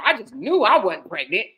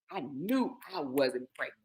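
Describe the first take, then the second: First: Insist, punching up the word "knew"; emphatic insistence. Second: Low, hushed restatement; quiet certainty. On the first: First take of repeated claim. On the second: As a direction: drop right down, privately sure of it. Repeats claim, dropping voice. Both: Real, not acted.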